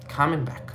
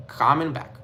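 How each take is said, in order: Both takes have the same delivery.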